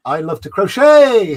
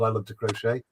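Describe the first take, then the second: First: Loud, high, drawn-out name shout; exuberant callout. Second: Said in the usual way. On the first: Acted. Streamer hailing a chatter by screen name, exuberant. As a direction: belt it out slowly with delight.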